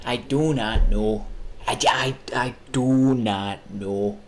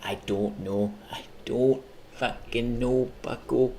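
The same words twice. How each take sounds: First: Slow, drawn-out mock answer; slow deliberate. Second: Slow hint of a Midwest accent. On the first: Answering his own question, slow and drawn out. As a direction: drag each word out slowly. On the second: Streamer answering himself in a slow Midwest accent. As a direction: stretch "don't" like a Midwesterner. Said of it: "the Midwest accent".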